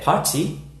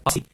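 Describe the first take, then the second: First: It is said with a British accent. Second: It is said with an American accent.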